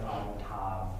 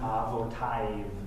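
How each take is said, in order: First: The last syllable is said as tav. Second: The last syllable is said as tiv. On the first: The speaker calls it right. "Everybody says avotav" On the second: The speaker calls it wrong. "Why isn't it avotiv? It's just not"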